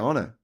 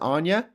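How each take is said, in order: First: The middle consonant is a plain 'n' sound. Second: The middle consonant is a 'ny' sound. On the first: "I didn't say Anya. I'd say Anna" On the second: "Is it Anya?"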